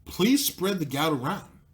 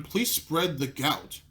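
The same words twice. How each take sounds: First: Slow mock appeal rising at the end; sarcastic plea, pushed. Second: Slow, drawn-out mock appeal to the crowd; a very slow, sarcastic plea to ladies and gentlemen. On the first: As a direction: lean on please and lift the end, mocking. Mock plea repeated, pushed harder. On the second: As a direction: drag each word out like a sarcastic announcer.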